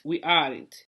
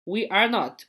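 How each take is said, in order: First: Aren't said as one lower word; contracted form. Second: Said in the usual way. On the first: Shown as a demonstration. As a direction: join we aren't, dropping the o of not. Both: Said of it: "Olha aqui, ó".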